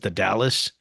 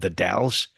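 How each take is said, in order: First: The name sounds like the city Dallas. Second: The name does not sound like Dallas. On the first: The speaker calls it wrong. "he pronounced ... as the Dallas" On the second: The speaker calls it right. "a city here in Oregon called the Dalles"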